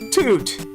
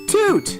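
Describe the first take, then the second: First: The word sounds flat and dull. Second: The word sounds sharp and happy. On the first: The speaker calls it wrong. "It sounded flat. It was a little too flat" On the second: The speaker calls it right. "that was a happier sounding toot"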